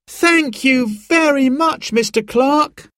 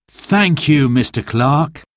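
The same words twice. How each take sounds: First: Put-on high, slow, rising thank you from the children; excited children's thanks. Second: Father's thanks. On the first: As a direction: thank him eagerly like delighted kids. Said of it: "cried Simon and Sarah". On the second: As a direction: thank him as a grateful dad. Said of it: "said Dad". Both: A narrator's reading.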